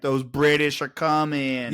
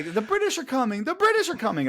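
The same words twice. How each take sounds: First: Slow, drawn-out Boston townie; unhurried mock Boston accent. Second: High-pitched alarm cry; mock historic warning call, pitched way up; town crier's warning. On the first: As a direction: imitate a Boston local, stretching the words. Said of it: "guarantee he was like". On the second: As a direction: sound the alarm in a high, carrying voice. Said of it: "'cause they always say".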